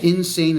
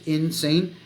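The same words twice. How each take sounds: First: The word is said smoothly with no break. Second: The word is broken into two separate parts. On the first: "insane is one word" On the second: "when I say two words"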